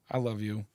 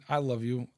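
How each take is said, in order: Both takes have the same delivery.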